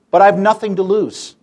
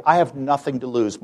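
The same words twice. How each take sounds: First: Louder and higher on "I have nothing to lose"; emphatic. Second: Said in the usual way. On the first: Real, not acted. Tells the audience he has nothing to lose, emphatic. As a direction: punch "I" and "nothing".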